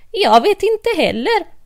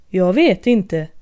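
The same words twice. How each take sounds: First: Mad Hatter. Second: March Hare. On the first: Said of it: "sa hattaren". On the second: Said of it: "sa marsharen". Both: Acted.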